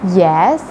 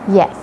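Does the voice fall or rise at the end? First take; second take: rises; falls. First: The pitch rises at the end. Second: The pitch falls at the end. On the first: Something more is to follow. "the rise yes no" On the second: The question is fully answered. "the neutral tone and it gives the impression of finality"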